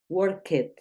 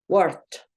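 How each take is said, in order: First: The ending is an extra 'id' syllable. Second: The ending is a short 't' sound. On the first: The speaker calls it wrong. "no es indicado decir work it" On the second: The speaker calls it right. "como una T"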